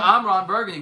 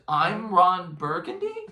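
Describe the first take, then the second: First: It is said as a plain statement. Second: It is said with a questioning rise.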